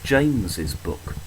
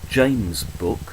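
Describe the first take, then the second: First: The name is said with an extra syllable. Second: The name is said with one syllable, no extra sound. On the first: The speaker calls it right. "we say James's book. That extra S is pronounced" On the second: The speaker calls it wrong. "We don't say James' book"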